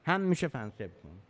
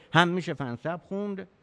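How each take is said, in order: First: فنسب said fansib, i before the last b; fansib reading. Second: فنسب said fanasab, a on the middle syllable; fanasab reading. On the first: Teacher shows students the fansib reading. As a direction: say فنسب as fan-sib, short e before b. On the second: Teacher shows students the fanasab reading. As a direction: say فنسب as fa-na-sab with open a. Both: Shown as a demonstration. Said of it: "پس فنسب و فنسب".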